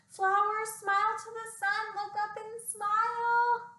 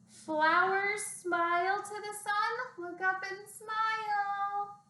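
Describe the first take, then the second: First: It is said at a faster pace. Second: It is said at a slower pace.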